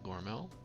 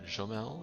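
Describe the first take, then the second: First: It starts with a hard g and has an r. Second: It starts with a soft French j sound. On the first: "not Gormel" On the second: "Put a little bit of a French accent on it"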